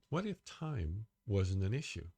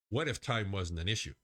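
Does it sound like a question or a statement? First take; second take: question; statement. First: It sounds like a wondering, open question. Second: It sounds like a firm declaration.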